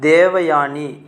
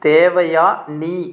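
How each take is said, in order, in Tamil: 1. இந்தப் பெயர் ஒரே சொல்லாக இணைத்துச் சொல்லப்படுகிறது. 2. இந்தப் பெயர் இரண்டு பகுதிகளாகப் பிரித்துச் சொல்லப்படுகிறது.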